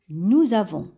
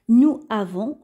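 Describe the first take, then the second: First: The words are joined by a linking z sound. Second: The words are said separately without a linking z. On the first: The speaker calls it right. "le S va se prononcer ZE. Et on relie les syllabes" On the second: The speaker calls it wrong. "on va pas prononcer de cette façon"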